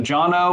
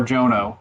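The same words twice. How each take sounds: First: Jono said JAH-no, with an open 'ah'; first pronunciation. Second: Jono said JOE-no, with a long 'oh'; second pronunciation. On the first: Host checking a guest's name, Jono said JAH-no. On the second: Host offering the other option, Jono said JOE-no. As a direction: say Jono with 'oh' in the first syllable. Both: Shown as a demonstration. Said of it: "is it Jono or Jono".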